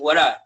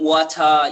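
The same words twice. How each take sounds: First: The t in 'what' sounds like an r. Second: The t in 'what' is a clear t. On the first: "I kind of changed the, the T for an R" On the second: "I'm not saying"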